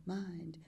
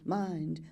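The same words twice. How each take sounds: First: Mind whispered very softly, no voice. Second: Said in the usual way. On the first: Acted. Repeated word, now whispered.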